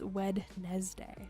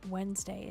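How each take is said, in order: First: Every letter is sounded, including the middle d. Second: It is said the usual way, without the middle d. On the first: The speaker calls it wrong. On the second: The speaker calls it right.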